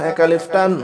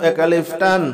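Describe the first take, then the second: No difference in how they are said.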